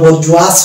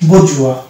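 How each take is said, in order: First: The word ends with an audible s sound. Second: The word ends without any s sound. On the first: The speaker calls it wrong. "এস এর যদি উচ্চারণ আসতো তাহলে এটা হলো বরজুয়াস হতো" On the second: The speaker calls it right. "এই শব্দটার উচ্চারণ আমরা করি"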